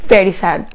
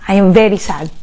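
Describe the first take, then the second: First: Quieter, sadder repeat; echoed very sad; softer sad echo. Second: 1 sad. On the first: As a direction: let it drop lower. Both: Real, not acted. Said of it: "just being emotional".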